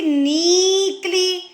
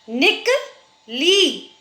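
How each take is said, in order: First: "नीकली" with the first vowel drawn out long; wrong-form demo, long ee in "नीकली". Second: "निकली" as short "निक", pause, long "ली"; slow split "निकली", short i first. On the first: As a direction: deliberately stretch the "नी" of "नीकली". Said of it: "न में बड़ी की मात्रा". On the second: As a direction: keep "निक" brief and stretch "ली" in "निकली". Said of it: "न में छोटी की मात्रा". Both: Shown as a demonstration.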